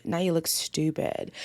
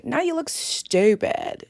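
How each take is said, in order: First: Matter-of-fact verdict on STUPID, pitch dropped; lower, restrained telling-off on "Now you look stupid"; lowered repeat. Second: STUPID drawn out, high and slow; slow, high-pitched telling-off on "Now you look stupid"; emphatic scolding. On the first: Same scolding repeated, dropped down. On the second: Scolding him, repeats line for effect. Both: Real, not acted.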